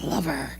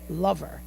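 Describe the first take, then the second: First: The word is drawn out in a suggestive way. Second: The word is said in a plain, neutral way. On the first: It implies something sexual. "He was like, oh, lover. Like, like it, it makes it dirty" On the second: It is just a term for a partner. "He didn't say lover"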